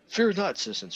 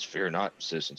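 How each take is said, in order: First: First voice, pitched up; different voices. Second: Different voices. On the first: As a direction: proclaim it high like a caped hero. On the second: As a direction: drop down for the answering voice. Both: Acted. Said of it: "saying in different voices".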